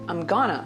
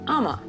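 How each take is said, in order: First: 'Going to' is reduced and run together as 'gonna'. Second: The whole phrase is squeezed into two syllables. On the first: "You can say" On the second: "But you can also say"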